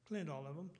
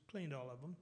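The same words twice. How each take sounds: The two takes are said the same way.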